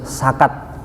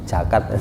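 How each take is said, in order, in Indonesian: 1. Kata ini diawali dengan bunyi s. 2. Kata ini diawali dengan bunyi j. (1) "Kalau orang Makassar, Bugis, ... S semua" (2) "Kalau Betawi, Sunda jadi J"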